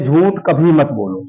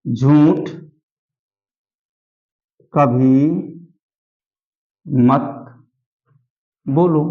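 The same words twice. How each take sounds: First: Said in the usual way. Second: Single words with long silences between; word-by-word dictation. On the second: Shown as a demonstration. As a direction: dictate one word, wait, then the next. (एक-एक शब्द रुककर लिखवाते हुए)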